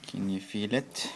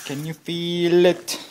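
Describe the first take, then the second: First: Said in the usual way. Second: High, loud taunting yell. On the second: Shown as a demonstration. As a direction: shout the question in triumph. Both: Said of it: "repeated louder".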